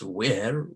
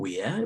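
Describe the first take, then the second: First: It is said in an American accent. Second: It is said in a British accent. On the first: "U S" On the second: "U K pronunciation"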